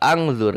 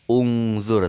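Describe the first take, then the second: First: The word begins with an a vowel. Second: The word begins with a u vowel. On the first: The speaker calls it wrong. "tidak angzur" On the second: The speaker calls it right. "Maka dibaca u ya"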